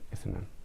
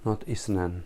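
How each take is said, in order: First: The middle consonant is a soft 'th' sound. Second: The middle consonant is a hissing 's' sound. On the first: The speaker calls it right. "It must be like that" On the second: The speaker calls it wrong. "We don't have isnan in Arabic"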